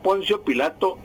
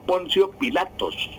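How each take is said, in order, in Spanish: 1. El nombre termina sin sonido s. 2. El nombre termina con sonido s. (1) "Era Poncio Pilato" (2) "y no Poncio Pilatos"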